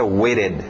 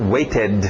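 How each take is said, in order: First: The -ed ending is quick and clipped in the throat. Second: The -ed ending is fully and clearly pronounced. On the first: "ou rápido na garganta" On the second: "o pronúncio do ed mesmo"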